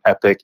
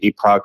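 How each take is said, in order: First: The second syllable sounds like 'pick'. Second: The second syllable sounds like 'pock'. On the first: "some Epic" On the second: "Some people pronounce it Epoch"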